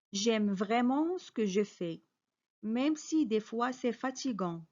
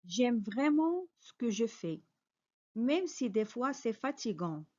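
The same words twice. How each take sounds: The two takes are said the same way.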